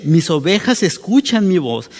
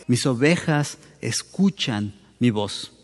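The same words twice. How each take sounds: First: Said in the usual way. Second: Soft solemn quote. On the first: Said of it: "cuando dice". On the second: Shown as a demonstration. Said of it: "la implicación de lo que Jesús está diciendo es".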